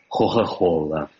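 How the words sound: The k between vowels is a breathy h.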